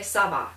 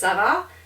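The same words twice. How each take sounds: First: It is said as a statement, falling. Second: It is said as a question, rising. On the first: It answers that things are going fine. "and the other person can say ça va. In other words, it's going" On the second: It asks how things are going. "it can be phrased as a question and a statement. So, if somebody says ça va"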